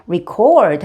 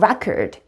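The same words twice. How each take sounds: First: The stress is on the second syllable. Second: The stress is on the first syllable. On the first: It is a verb meaning to record. "녹음하다 하면 record 하고 올라갑니다" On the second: It is a noun meaning a recording. "녹음이라고 할 때는"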